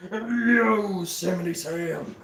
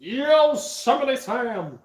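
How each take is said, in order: First: Slow drawl at an ordinary pitch; Yosemite Sam. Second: Higher, drawn-out cartoon holler; Yosemite Sam. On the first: Acted. Cartoon cowboy repeating his name, restrained slow drawl. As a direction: draw the name out, holding the pitch down. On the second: Cartoon cowboy announcing himself, high drawn-out holler. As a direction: stretch the name out high and slow.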